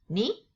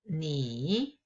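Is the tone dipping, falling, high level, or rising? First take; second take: rising; dipping. First: The pitch rises from middle to high. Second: The pitch dips low and then rises.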